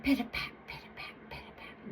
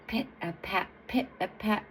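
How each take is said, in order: First: Whispered little footsteps; tiptoeing. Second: Measured, weighty pit-a-pat; big, heavy footsteps. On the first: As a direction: fade to a tiny tiptoe whisper. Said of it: "Little Daughter tiptoed toward the gate". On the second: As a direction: give each step a little weight. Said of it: "she hears big and heavy". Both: A narrator's reading.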